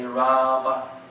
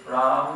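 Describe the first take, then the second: First: The vowel after the m is fully sounded. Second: The vowel after the m is barely heard. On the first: "or you can say Rama" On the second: "you can say it subtly"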